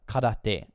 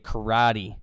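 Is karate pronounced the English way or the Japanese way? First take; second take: Japanese; English. First: It is said with a Japanese pronunciation. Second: It is said with an English pronunciation. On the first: "karate is how you would pronounce it in Japanese" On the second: "in English we'd say karate"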